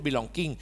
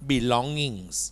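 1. เสียง g แข็งตามหลังเสียง ng 2. มีแต่เสียง ng ไม่มีเสียง g แข็ง (1) "ตัวนี้ไม่ได้พูด" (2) "ต้องพูดว่า belongings เป็นเสียงงองู"

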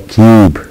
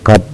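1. حرف العلة طويل، مثل 'you'. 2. حرف العلة قصير، كما في كلمة قب. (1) "وإنما كيوب" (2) "لا نقول قب"

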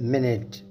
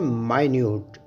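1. इसे 'minit' की तरह छोटी 'i' के साथ बोला जाता है। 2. इसे 'my-newt' की तरह लंबी 'i' के साथ बोला जाता है। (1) "अगला लफ्ज़ है मिनट" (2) "इसी लफ्ज़ को हम माइन्यूट प्रोनाउंस करते हैं"

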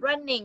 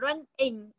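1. Hai âm tiết được đọc nối liền với nhau. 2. Hai âm tiết được đọc tách riêng. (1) "Đọc nối vào luôn" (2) "không phải là running"

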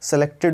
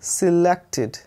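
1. पहला स्वर छोटा 'eh' ध्वनि है। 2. पहला स्वर छोटा 'ih' ध्वनि है। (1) "सेलेक्टेड हो गया वो भी गलत है" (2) "करेक्ट उच्चारण है दोस्तों इसका सिलेक्टेड, ये एस ई से छोटा ई की मात्रा"

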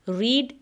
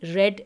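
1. स्वर लंबा है, 'reed' जैसा। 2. स्वर छोटा है, 'red' जैसा। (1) "रीड की स्पेलिंग" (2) "थर्ड फॉर्म को भी हम रेड प्रोनाउंस करते हैं"

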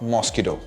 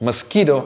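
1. Stress ആദ്യത്തെ അക്ഷരത്തിലാണ്. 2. Stress രണ്ടാമത്തെ അക്ഷരത്തിലാണ്. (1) "not mosquito" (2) "ഈ ഒരു ഇതാണ് സ്ട്രെസ് ചെയ്യേണ്ടത്, കീ എന്നുള്ള സൗണ്ട്"

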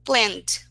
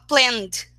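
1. O final é pronunciado só como o som de d. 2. O final é pronunciado só como o som de d.

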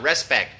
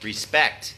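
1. เน้นเสียงที่พยางค์แรก 2. เน้นเสียงที่พยางค์ที่สอง (2) "เน้นพยางค์ที่สอง"

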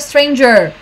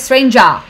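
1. É pronunciado com uma pronúncia típica americana. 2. É pronunciado com uma pronúncia não americana. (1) "americano geralmente fala stranger" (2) "e ela fala stranger"

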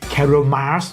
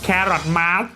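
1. อ่านด้วยสำเนียงคล้ายฝรั่งเศส 2. อ่านด้วยสำเนียงอังกฤษแบบธรรมดา (1) "มันต้องอ่านแบบภาษาคล้ายฝรั่งเศสหน่อยอะ" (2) "คนนูบจะอ่านอย่างนี้นะ"

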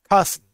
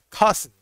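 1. La primera vocal suena como 'ah'. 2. La primera vocal suena como 'ah'.

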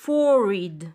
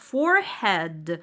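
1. Вторая часть редуцирована, без полного head. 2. Вторая часть звучит как слово head. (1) "классический словарь изначально дает транскрипцию forehead" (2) "Некоторые говорят forehead от слова голова"

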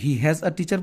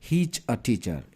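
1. বিষয় আর ক্রিয়া দুটো আলাদা পূর্ণ শব্দ। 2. বিষয় আর ক্রিয়া মিশে এক সিলেবলে হয়ে যায়। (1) "এটাকে কি তুমি হি হ্যাজ আ টিচার পড়বা? কখনোই না।" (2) "তুমি এটাকে পড়বা হিজ আ টিচার"

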